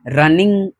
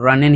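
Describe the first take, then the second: First: The word ends with a full 'ing' sound. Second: The word ends with a short 'in' sound. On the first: The speaker calls it wrong. "ऐसे नहीं" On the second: The speaker calls it right. "तो आपको रन इन ही बोलना है"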